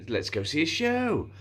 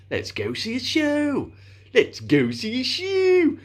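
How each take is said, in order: First: Silly line, pitched up a little; slightly silly. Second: High, drawn-out silly voice, building; increasingly silly. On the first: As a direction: say it a touch sillier, higher at the end. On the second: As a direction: make each repeat sillier and longer. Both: Retold or imitated. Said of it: "more, slightly more silly".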